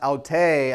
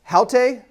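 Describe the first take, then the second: First: It starts without h, stress on last syllable. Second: It starts with an h, stress on first syllable. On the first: Same. "accented on the final syllable" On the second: This woman. "Rough breathing versus smooth, and accented here"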